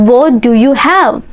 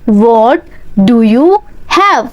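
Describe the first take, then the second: First: Said in the usual way. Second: Teacher splits the line for students; slow word by word drill. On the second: Shown as a demonstration. Teacher drilling learners, slow chunked repeat.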